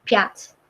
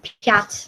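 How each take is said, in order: First: The final t is softened with a slight trailing ending. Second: The same.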